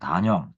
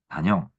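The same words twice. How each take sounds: First: The first syllable has a long vowel. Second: The first syllable has a short vowel. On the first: The first syllable means short. "단자를 좀 길게 발음하고요" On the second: The first syllable means single. "짧게 발음해야죠"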